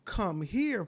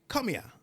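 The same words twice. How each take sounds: First: It is said in clear, standard Jamaican English. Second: It is said in broken Jamaican patois. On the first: "Like I may say to you" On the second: "If I say it in a broken Jamaican English"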